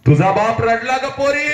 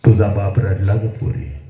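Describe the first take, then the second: First: High, ringing declamation; soaring pitch with held ending; impassioned cry. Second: Said in the usual way. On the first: Acted. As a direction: cry it out to the daughter. Same line cried out high.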